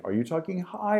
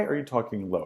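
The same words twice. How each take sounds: First: High-pitched question, rising at the end. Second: Lower, softer question with a falling end; low pitch. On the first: Teacher demonstrates voice modulation to students, high pitch. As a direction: raise the voice, climbing on "high". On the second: Teacher demonstrates voice modulation to students, low pitch. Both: Shown as a demonstration. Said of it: "think of voice modulation".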